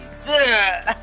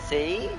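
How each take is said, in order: First: The name ends with a short, punched 'uh' vowel. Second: The name ends with a long 'ee' vowel. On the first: "Like getting punched in the gut, but saying the word E" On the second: "Pretty sure her name is pronounced C"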